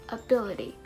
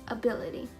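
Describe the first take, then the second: No difference in how they are said.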